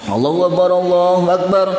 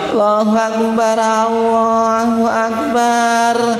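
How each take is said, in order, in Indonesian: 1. Frasa ini diucapkan dengan cepat. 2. Frasa ini diucapkan dengan lambat. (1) "kalau iqamah itu dibaca agak cepat" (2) "orang tua senja kemudian iqamah kok lambat"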